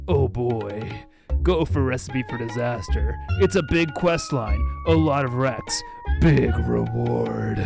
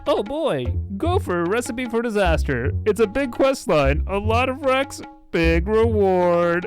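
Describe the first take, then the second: First: It is said with only mild drama. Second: It is said in a very dramatic way.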